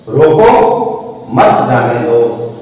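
There is a pause right after 'roko'.

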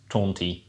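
The article is shortened to a bare t sound. This sounds properly like dialect. "you shorten the article to just an apostrophe T"

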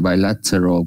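A British accent, with a clear t sound. "Còn nếu mình đọc đúng như người Anh"

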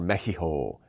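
The word is said the Spanish way.

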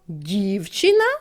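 It is asked back with a questioning tune. "Перепитаємо"

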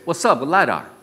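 It is said in a casual, street-slang style. "The gangsta way is"

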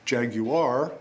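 The word is said with three syllables. "the three-syllable version, which is typically British"

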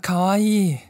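It sounds like polite, perfunctory praise. The speaker doesn't really mean the compliment.

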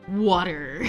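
It is said in an American accent.

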